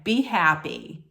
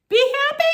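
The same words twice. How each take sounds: First: Said in the usual way. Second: High, loud disbelieving echo; incredulous. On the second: Retold or imitated. Host repeating his parting words to a crying woman, incredulous. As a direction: throw it back in outraged disbelief.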